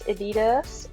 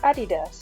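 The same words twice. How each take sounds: First: The name is pronounced the English way. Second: The name is pronounced the German way. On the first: The speaker calls it wrong. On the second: The speaker calls it right.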